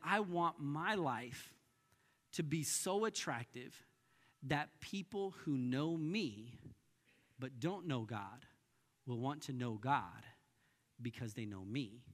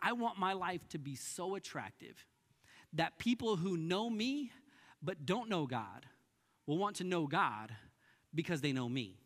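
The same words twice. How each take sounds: First: It is said more slowly. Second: It is said at normal speed.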